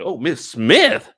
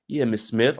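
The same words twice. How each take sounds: First: High, loud, slow disbelief; incredulous. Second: Said in the usual way. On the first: Acted. Commentator questions him calling her Miss Smith, incredulous. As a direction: stretch Smith into a shocked question. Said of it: "I'm like". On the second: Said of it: "she's looking at it like".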